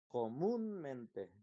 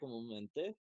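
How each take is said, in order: First: The stress falls before the final syllable. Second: The stress falls on the final syllable. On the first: The speaker calls it right. "La sílaba tónica está aquí" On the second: The speaker calls it wrong. "Si estuviera al final sería"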